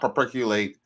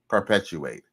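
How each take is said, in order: First: The word is said garbled, with syllables mangled. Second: The word is said clearly with every syllable. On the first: The speaker calls it wrong. "not perpetuate" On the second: The speaker calls it right.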